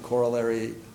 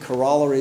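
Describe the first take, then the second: First: It is said the American way. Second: It is said the British way.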